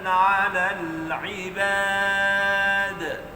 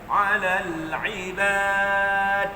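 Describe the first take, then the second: First: The final d ends with a clear echoing bounce. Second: The final d is clipped without any bounce. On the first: The speaker calls it right. "dikeluarkan lantun, ada lantunan dal itu" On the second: The speaker calls it wrong. "kalau tuan-tuan baca huruf dal tanpa qalqalah, dia jadi ta"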